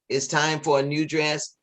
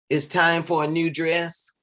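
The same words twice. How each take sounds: Both takes have the same delivery.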